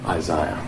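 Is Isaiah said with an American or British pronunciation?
British. The name is said with a British pronunciation. "The Brits say Isaiah... they would pronounce it that way"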